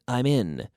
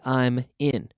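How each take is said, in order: First: The m links smoothly into the next vowel. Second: The two words are said with a break. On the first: The speaker calls it right. "We link it onto the consonant" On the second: The speaker calls it wrong. "No one would say"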